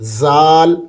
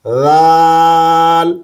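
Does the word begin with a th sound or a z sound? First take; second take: z sound; th sound. First: It begins with a buzzing z sound. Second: It begins with a soft th sound. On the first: The speaker calls it wrong. "जाल दुरुस्त नहीं है" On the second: The speaker calls it right. "बल्कि दुरुस्त क्या है?"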